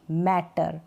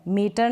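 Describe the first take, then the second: First: मैटर with an open ae, dropped low; matter with ae vowel. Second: मीटर said with a long ee; the wrong take मीटर, long ee; wrong word meter. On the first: Teacher gives the right मैटर, open ae. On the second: Teacher shows the wrong मीटर, long ee. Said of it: "मीटर नहीं". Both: Shown as a demonstration.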